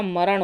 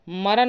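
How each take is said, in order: First: मरण ending in retroflex ṇ; correct form. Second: मरण ending in dental n, "maran"; plain n at the end of मरण; wrong form. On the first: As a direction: curl the tongue to end मरण. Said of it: "मरण होता है". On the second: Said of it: "मरण नहीं होता". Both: Shown as a demonstration.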